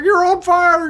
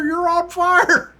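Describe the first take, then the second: First: Very high, loud squeal of alarm; high squeaky mock rookie shouting a warning; frantic rookie. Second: Very high, slowed, laughing repeat; high squeaky voice, drawn out and breaking into laughter; laughing rookie. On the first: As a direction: yelp it like a panicked rookie. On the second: Retold or imitated. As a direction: stretch it out while cracking up. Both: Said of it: "He's like".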